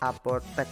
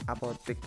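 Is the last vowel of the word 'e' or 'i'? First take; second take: e; i. First: The final syllable is said with an 'e' vowel. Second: The final syllable is said with an 'i' vowel. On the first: The speaker calls it right. "kalau misalkan beli obat tuh ke apotek ya" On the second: The speaker calls it wrong. "bukan apotik"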